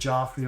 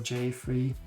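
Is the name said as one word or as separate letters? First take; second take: one word; separate letters. First: The name is blended into one word. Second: The name is said as separate letters.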